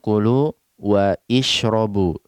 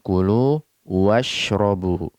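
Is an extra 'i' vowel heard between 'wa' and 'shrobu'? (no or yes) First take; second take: yes; no. First: An 'i' vowel is sounded between wa and shrobu. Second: Wa runs straight into shrobu with no vowel. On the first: The speaker calls it wrong. "Kita tidak mengatakan kulu wa ishrobu" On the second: The speaker calls it right. "Kita mengatakan kulu washrobu"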